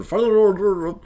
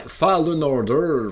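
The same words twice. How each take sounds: First: Fallen Order belted out much higher and louder, in exaggerated English; hammed-up high, loud English accent on Fallen Order; mock English pronunciation. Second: Fallen Order stretched out slowly and loudly, in exaggerated English; hammed-up slow English accent on Fallen Order; mock English pronunciation. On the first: Showing off his accent to his friend Marc, a hammed-up high, loud English accent. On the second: Correcting his accent for his friend Marc, a hammed-up slow English accent. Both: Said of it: "accent de merde quand c'est le temps de dire".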